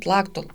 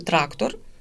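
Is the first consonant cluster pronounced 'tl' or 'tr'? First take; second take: tl; tr. First: The r sounds are replaced with l sounds. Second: The word is said with clear r sounds. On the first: The speaker calls it wrong. "А дитина насправді каже тлактол" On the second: The speaker calls it right. "ри, ми чітко кажемо"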